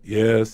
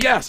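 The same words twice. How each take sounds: First: It is said weakly without emotion. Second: It is said loudly with strong emotion.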